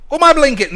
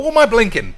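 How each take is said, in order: First: Even louder, higher disbelieving yell; louder exasperated shout. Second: Loud disbelieving shout, pitched up; exasperated shout. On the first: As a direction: scream the repeat in disbelief. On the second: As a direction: yell it at the screen in disbelief. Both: Retold or imitated. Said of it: "I thought".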